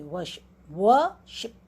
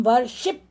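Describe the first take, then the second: First: worship slowly, long व and faint शिप; teacher's demo of worship stressed on first syllable. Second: worship with शिप punched out fully; wrong stress on शिप. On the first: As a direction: stretch व, swallow the शिप in worship. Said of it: "व पे हमारा stress रहता है". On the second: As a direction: hit the second syllable of worship. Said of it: "हम worship नहीं कहते". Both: Shown as a demonstration.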